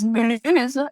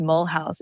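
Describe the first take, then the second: First: It is said with a French pronunciation. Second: It sounds like the English words 'mole house'. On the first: The speaker calls it right. "It was Mulhouse" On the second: The speaker calls it wrong. "Do not say that when you come to France"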